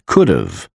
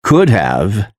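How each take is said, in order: First: "could've" as KOOD-uv; reduced "could've", h dropped; contracted could've. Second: Said in the usual way. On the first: Shown as a demonstration. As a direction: run "could've" together with a weak "uv". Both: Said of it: "is pronounced as".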